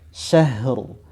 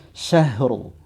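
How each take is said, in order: No difference in how they are said.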